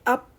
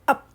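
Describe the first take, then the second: First: The final p is audibly released. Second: The final p is held with closed lips. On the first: The speaker calls it wrong. "don't say up" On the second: The speaker calls it right. "Say up, close lips only"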